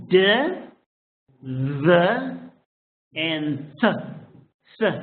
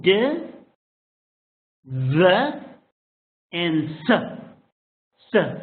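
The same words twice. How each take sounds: The two takes are said the same way.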